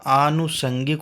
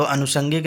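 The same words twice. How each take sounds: First: आनुषंगिक with a long first aa, aa-nushangik; correct spelling said aloud. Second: अनुषंगिक with a short first a, ə-nushangik; wrong spelling said aloud. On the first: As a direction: stretch the opening aa of आनुषंगिक as the correct form. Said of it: "आनुषंगिक होता है". (आनुषंगिक लंबे 'आ' से, सही रूप) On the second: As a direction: say अनुषंगिक with a short opening vowel, as the wrong form. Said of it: "अनुषंगिक नहीं होता है". (अनुषंगिक छोटे 'अ' से, गलत रूप की तरह) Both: Shown as a demonstration.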